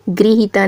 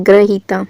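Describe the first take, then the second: First: गृहीता with 'gri' at the start; an 'i' sound after 'gr' in गृहीता; incorrect pronunciation. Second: ग्रहीता with 'gra' at the start; a short 'a' after 'gr' in ग्रहीता; corrected pronunciation. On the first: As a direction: say गृहीता as 'gri-hee-taa'. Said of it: "गृहीता नहीं होता". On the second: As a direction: say ग्रहीता as 'gra-hee-taa'. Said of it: "ग्रहीता सही रूप होगा". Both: Shown as a demonstration.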